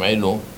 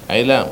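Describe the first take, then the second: First: The last syllable has an o vowel. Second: The last syllable has an a vowel. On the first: The speaker calls it wrong. "לא אומרים עילום" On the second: The speaker calls it right. "אותו דבר"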